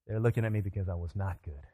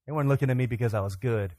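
First: Low, soft, with "not" set apart; deflated stress on NOT. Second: Said in the usual way. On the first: Retold or imitated. Comic admitting why they stared, deflated stress on "not". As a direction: drop the voice and weight "not".

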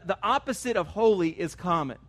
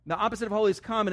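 First: Holy held and falling; deliberate statement stressing holy. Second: Fast, run-through restatement; brisk reminder; quick repeat. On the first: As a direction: lean on the word holy. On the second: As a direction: rattle it off. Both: Shown as a demonstration.

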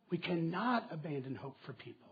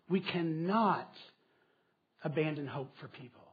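First: Said in the usual way. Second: Slow with a pause after cannot, We cannot ... abandon; slow, spaced emphasis. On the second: Shown as a demonstration. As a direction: drag it out, word by word, with a break after cannot.

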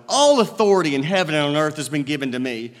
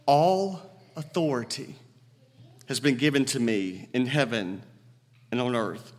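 First: Said in the usual way. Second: Solemn quote. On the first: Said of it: "Think about it for a moment". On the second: Retold or imitated. Jesus to his eleven followers, low and solemn. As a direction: hand it down with quiet weight. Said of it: "makes that statement".

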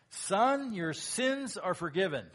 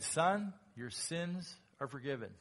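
First: Loud, higher proclamation of forgiveness; Jesus forgiving. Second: Tender forgiveness. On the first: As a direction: announce it boldly as Jesus. Jesus speaks to paralyzed man. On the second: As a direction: say it kindly to the man. Jesus's real answer, contrasted. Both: Acted.

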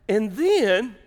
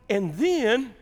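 The two takes are said the same way.

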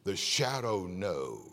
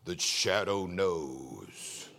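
First: A lighter, lower, slowed echo of the radio Shadow; half-repeat the Shadow line, less hammed; a hint of the radio Shadow voice. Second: Much lower, very slow, ominous radio narrator; spooky radio announcer, slowed right down; old radio Shadow line. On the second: Retold or imitated. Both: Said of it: "we used to listen".

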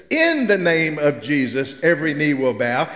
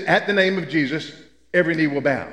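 First: "In" stressed, unhurried and weighty. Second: AT leaned on, said deliberately; "At" marked as the key word, steady reading; stress on at. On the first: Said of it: "In Latin and Greek, though, it says". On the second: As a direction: lean on the word "At" in "At the name of Jesus". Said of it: "And in English, it says". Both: Shown as a demonstration.

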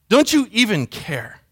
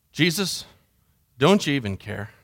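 First: Slow "Don't you even care?" leaning on "you"; deliberate, pitch falling through "even care"; emphatic plea. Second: Low and soft, almost to oneself; subdued, hushed question; hurt, quiet plea. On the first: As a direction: draw out the question in wounded disbelief. Disciples' plea repeated with emphasis. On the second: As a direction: ask it privately, drained of force. Personal hurt plea to Jesus. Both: Acted.

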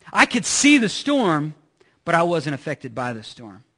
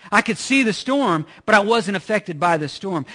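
First: Slowed on "I could see the storm", then dropped low; slow emphatic point. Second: "see" lifted, second half held level; repeated emphatic point. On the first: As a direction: stress "see" then contrast "wasn't". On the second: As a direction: repeat it, stressing "see" and "wasn't". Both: Shown as a demonstration. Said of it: "Did y'all get that?".

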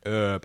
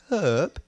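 First: HERB with silent h, "erb"; low, soft "erb"; American herb. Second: HERB with a breathed h; British "hhherb". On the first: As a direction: drop the h from Herb. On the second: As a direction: sound the h at the start of herb. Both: Shown as a demonstration. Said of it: "I would say herb".

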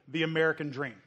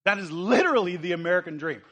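First: Said in the usual way. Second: Literally stressed, the whole line louder; emphatic repeat. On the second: Shown as a demonstration. Preacher hammering his point to the congregation, emphatic. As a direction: punch literally and drive the American dream home.

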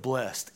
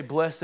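First: Blessed said as "blest"; "blessed" with a silent e, ending in -st; one-syllable blessed. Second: Blessed said as BLESS-ed; "blessed" with a sounded -ed ending; two-syllable blessed. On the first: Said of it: "instead of blessed". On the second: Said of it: "why we say blessed instead of blessed". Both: Shown as a demonstration.

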